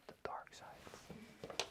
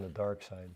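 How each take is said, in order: First: Slow, voiceless whisper on a playful echo. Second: Said in the usual way. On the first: Pretend. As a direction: whisper it slowly, drawn out and very soft. Phrase echoed in a whisper.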